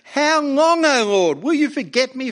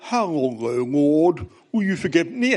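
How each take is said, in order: First: It is read with raw, pained emotion. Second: It is read in a posh upper-class accent. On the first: The lament expresses real pain and hurt. The speaker calls it right. "There's a raw emotion here. There's real pain, real hurt" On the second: The lament sounds detached and formal. The speaker calls it wrong. "don't read it in a an upper class accent"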